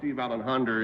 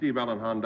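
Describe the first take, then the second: First: A New England accent adds an R after Honda. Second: A Western accent ends Honda on a plain vowel.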